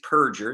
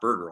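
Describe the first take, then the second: First: The ending starts with a p sound. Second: The ending starts with a b sound. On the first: The speaker calls it right. "his name really is Perger" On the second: The speaker calls it wrong. "It's mispronounced Burger all the time"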